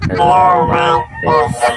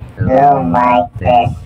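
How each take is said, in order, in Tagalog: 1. Ang boses ay may baby effect. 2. Ang boses ay may goddess effect. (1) "Baby sound effect" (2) "Goddess sound effect"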